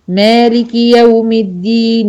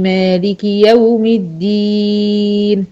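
First: The long vowel is short and flows onward. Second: The long vowel is stretched before stopping. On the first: The reciter continues without stopping. "لكن لو اكملها" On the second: The reciter stops on this word. "عشان وقفت على الدين مديت"

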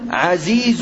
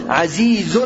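First: The word ends without a final n sound. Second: The word ends with a final n sound. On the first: "وردت هاهنا بلا تنوين" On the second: "الأصل أن يأتي منونا"

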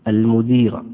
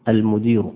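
No difference in how they are said.

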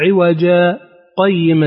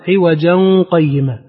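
First: A brief breathless pause separates the two words. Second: The two words run together without a pause. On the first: "أما هو يقول" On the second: "أما غيره من القراء فإذا وصلوا قالوا"

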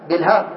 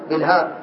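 Both takes have the same delivery.

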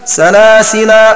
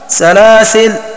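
First: The word ends with a long final a vowel. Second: The word ends on a silent final consonant. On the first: "بالمد سلاسل، أي إثبات الألف بعد اللام مع فتحها" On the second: "بالقصر أي حذف الألف مع سكون اللام"

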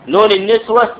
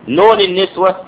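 Both takes have the same delivery.

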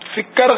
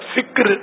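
First: A short vowel separates the k and r. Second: The k and r are joined without a vowel. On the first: The speaker calls it wrong. "فکر غلط ہے" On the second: The speaker calls it right. "فکر درست ہے"

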